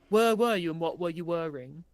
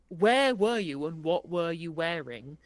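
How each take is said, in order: First: Where and were have the same vowel. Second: Where and were have different vowels.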